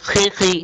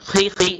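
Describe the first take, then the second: Both takes have the same delivery.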